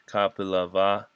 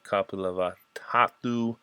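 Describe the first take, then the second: First: The name is said more smoothly and carefully. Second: The name is said haltingly, with a stumble. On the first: The speaker calls it right. "That's good enough" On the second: The speaker calls it wrong. "I can't say that"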